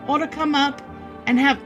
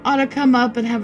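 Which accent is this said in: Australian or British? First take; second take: Australian; British. First: It is spoken in an Australian accent. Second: It is spoken in a British accent. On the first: The speaker calls it wrong. "That's Australian" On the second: The speaker calls it right. "There we go"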